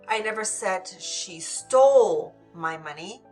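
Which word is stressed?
stole. The word stole carries the main stress. She may have borrowed it instead. "Maybe she borrowed it, but didn't steal it"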